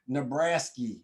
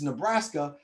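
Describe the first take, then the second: First: It is said in an exaggerated country accent. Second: It is said in a plain, normal accent.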